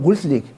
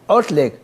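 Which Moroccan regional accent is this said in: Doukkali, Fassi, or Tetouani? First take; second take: Doukkali; Fassi. First: It is said in a Doukkala regional accent. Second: It is said in a Fes regional accent. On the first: "الدكوالي يقول" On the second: "والفاس يقول"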